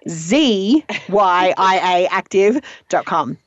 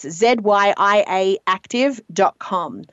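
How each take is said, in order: First: It is said in an American accent. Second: It is said in a non-American accent.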